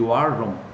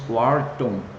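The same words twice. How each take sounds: First: The t is a quick r-like flap. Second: The t is a clear t sound. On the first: The speaker calls it right. "mas seria Wharton" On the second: The speaker calls it wrong. "algumas pessoas dizem Wharton"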